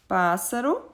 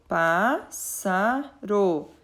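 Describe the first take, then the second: First: Said in the usual way. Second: "pássaro" very slowly as pás, sa, ro; three drawn-out beats on "pássaro"; split into syllables. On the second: Shown as a demonstration. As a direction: divide "pássaro" for a class, pausing after each syllable. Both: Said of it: "Na separação da palavra".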